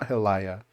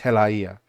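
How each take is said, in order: First: The vowels glide together with no break. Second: A glottal break separates the last vowels. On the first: The speaker calls it wrong. "It's not helaya" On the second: The speaker calls it right. "it's helaia"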